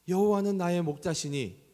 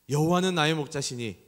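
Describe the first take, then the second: First: It is said in a tearful, choked voice. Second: It is said in a steady, plain voice.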